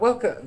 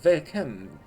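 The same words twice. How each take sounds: First: It is said in the speaker's plain accent. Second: It is said in an imitated French accent.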